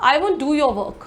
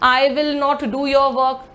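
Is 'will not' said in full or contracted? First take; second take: contracted; full. First: The words will not are contracted to won't. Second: The words will not are said in full.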